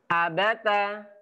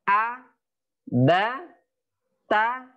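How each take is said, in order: First: The three syllables run together without pauses. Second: Each syllable is said separately with pauses. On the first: Three letters are read together as one group. "dibaca per kelompok tiga huruf" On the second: Each letter is read one at a time for emphasis. "ini dibaca satu-satu dengan tujuan penekanan"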